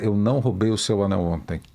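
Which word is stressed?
none. It is said flat, with no word stressed. "Uma coisa bem monocórdica"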